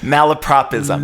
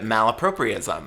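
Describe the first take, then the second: First: The middle sounds like 'malaprop', with no extra syllable. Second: The middle sounds like 'malapropri', with an extra syllable.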